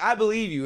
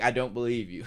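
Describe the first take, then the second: First: Feigned sincerity. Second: Lower, flatter I don't believe you, brushing it off; dismissive. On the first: Johnny telling the girl he believes her, mock-earnest. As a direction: assure her, sounding keen. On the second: Johnny's real meaning to the girl, lightly dismissive. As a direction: shrug the words off. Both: Retold or imitated. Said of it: "essentially was like".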